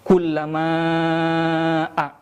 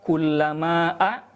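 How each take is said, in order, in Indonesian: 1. Vokal panjang ditahan selama lima harakat. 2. Vokal panjang ditahan selama dua harakat. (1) "boleh membaca lima harokat" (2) "boleh membaca dua harokat"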